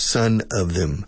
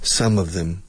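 First: The first word ends with an N sound. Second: The first word ends with an M sound. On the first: The speaker calls it wrong. "hijo de ellos" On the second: The speaker calls it right. "cerrando la boca"

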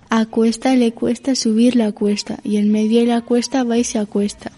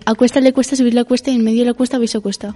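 First: It is said at normal speed. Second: It is said fast.

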